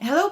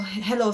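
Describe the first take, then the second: First: It sounds upbeat and happy, said while smiling. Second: It sounds flat and sad, said without smiling. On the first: The speaker comes across as positive. The speaker calls it right. "If you're smiling, your tone will sound na parang upbeat siya, happy, positive siya" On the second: The speaker comes across as unenthusiastic. The speaker calls it wrong. "nakita niyo yung difference sa tone just because I wasn't smiling"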